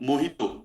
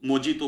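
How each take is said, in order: First: The middle consonant is an h sound. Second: The middle consonant is a j sound. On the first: "जे को वो लोग एच बोलते हैं" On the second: "अपना मोहितो मोजितो बोलते हैं"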